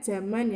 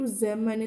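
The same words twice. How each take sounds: First: The word starts with a different consonant sound. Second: The word starts with a z sound. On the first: The speaker calls it wrong. "kadang kita membacanya zaman ya, ini tidak baku" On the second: The speaker calls it right. "Contoh kata bakunya itu zaman, itu penulisnya pakai Z"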